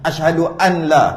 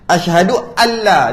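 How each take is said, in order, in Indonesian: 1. Bunyi n yang jelas terdengar sebelum la. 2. Bunyi n menyatu dengan l, tidak terdengar n. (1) "kalau baca nun juga tak batal" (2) "dia tak ada nun dah"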